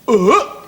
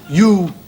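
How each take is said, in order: First: The letter is said as its phonetic sound. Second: The letter is said as its alphabet name.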